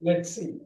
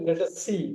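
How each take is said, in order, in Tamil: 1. Let, us இரண்டும் ஒரே அசையாக இணைகின்றன. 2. ஒவ்வொரு வார்த்தையும் தனித்தனியாக முழு வடிவில் சொல்லப்படுகிறது.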